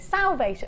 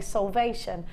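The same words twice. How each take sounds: First: It is said with the other region's vowel. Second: It is said with the Gloucestershire vowel. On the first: "you say" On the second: "So we say"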